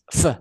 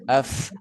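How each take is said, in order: First: The f is a sharp, forceful burst of air. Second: The f is a soft, flowing puff of air. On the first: The speaker calls it wrong. "Kalau kayak meludah kan gini" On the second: The speaker calls it right. "kayak meniup gitu ya"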